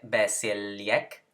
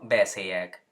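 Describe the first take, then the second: First: An L sound is heard before the Y. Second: The L merges into a single Y sound. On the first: The speaker calls it wrong. "no se dice besilyek" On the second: The speaker calls it right. "sino besiyek"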